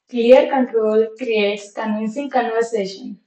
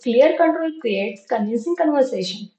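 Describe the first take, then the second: First: The sentence is spoken slowly. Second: The sentence is spoken quickly. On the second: "now last time, fast"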